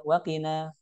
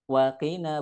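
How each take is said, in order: First: Wakina short, as one word; run together. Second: Wa, then long kina; separated words. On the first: Teacher showing the wrong reading, run together. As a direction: say "wakina" with wa glued on. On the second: Teacher showing the correct reading, separated words. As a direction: say "Wakina" as two words. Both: Shown as a demonstration. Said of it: "bukan wakina".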